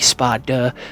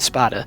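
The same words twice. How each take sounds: First: The middle consonant is a clearly pronounced D. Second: The middle consonant is casual and sounds like T. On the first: The speaker calls it right. "I am specifically pronouncing the D when I say Spada" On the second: The speaker calls it wrong. "if I just went Spada, like, that sounds like Sparta"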